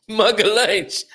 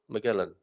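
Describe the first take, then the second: First: The name is said the Portuguese way. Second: The name is said the English way. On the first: The speaker calls it right. "No, I didn't" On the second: The speaker calls it wrong. "Have I pronounced that correctly"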